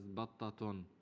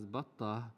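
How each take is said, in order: First: The word ends with an added '-on' syllable. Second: The word stops short without an added syllable. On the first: The word is not at the end of a pause. "batta can also pronounce as battaton" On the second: The speaker is stopping at the word. "we pronounce it as batta because um, we can stop at ta"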